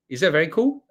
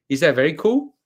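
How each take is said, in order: Both takes have the same delivery.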